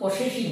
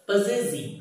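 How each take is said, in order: First: The middle consonant is a hissing s sound. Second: The middle consonant is a buzzing z sound. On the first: The speaker calls it wrong. "এর উচ্চারণটা কিন্তু পসেসিভ নয়" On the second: The speaker calls it right. "কি বলবে? পজেসিভ"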